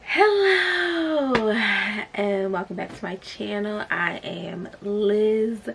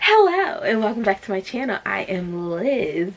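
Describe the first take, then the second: First: The voice sounds tired and low in energy. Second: The voice sounds lively and full of energy.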